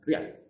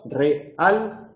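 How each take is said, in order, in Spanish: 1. La palabra se dice con una sílaba. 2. La palabra se dice con dos sílabas. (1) "Eso sería sinéresis" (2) "una palabra con dos sílabas"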